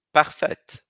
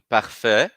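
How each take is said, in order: First: "parfaite" with a crisp audible T at the end; final T sounded. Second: "parfait" stopping on the open vowel, no T; silent final T. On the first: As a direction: hit the T in "parfaite". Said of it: "Falo T". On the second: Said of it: "para no A I". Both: Shown as a demonstration.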